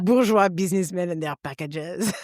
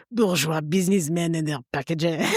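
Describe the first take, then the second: First: French courier. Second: Lightly voiced French courier, a bit lower; a hint of world-weary French accent; nihilistic French courier. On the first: Retold or imitated. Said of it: "with a beret going". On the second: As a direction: sneer it like a bored French cyclist.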